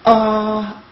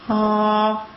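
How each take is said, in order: First: The vowel starts with a hard throat catch. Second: The vowel starts softly on a flow of air. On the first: The speaker calls it wrong. "if you feel the glottal attack" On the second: The speaker calls it right. "from your airflow, and it feels like"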